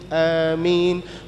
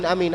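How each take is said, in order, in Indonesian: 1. Amin diucapkan sekali setelah kalimat doa. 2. Amin diulang dalam rangkaian cepat seperti otomatis. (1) "Ketika Allahumma hdina fi man hadait, amin" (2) "Bukan cuman amin, amin, amin ... Itu bukan doa"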